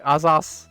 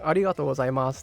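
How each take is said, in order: First: The phrase is squeezed into one short word. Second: The phrase is said in full, every syllable. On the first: "they'll be like azas instead" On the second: "instead of saying like arigato gozaimasu"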